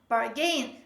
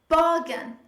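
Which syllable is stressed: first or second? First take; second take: second; first. First: The stress is on the second syllable. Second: The stress is on the first syllable. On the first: The speaker calls it wrong. "They tend to stress the second part of this word, second syllable" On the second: The speaker calls it right. "But the stress is on the first syllable"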